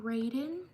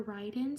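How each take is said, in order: First: "Raiden" said as RAY-den; first pronunciation guess. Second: "Raiden" said as RYE-den; alternative pronunciation. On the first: Streamer guessing a subscriber's name, "Raiden" as RAY-den. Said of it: "Or Raiden". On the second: Streamer offering another reading of a name, "Raiden" as RYE-den. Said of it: "Sorry if I mispronounced your name". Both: Shown as a demonstration.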